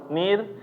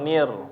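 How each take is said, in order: First: The r is pronounced heavy and thick. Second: The r is pronounced light and thin. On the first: "dibaca secara tebal" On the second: "atau secara tipis"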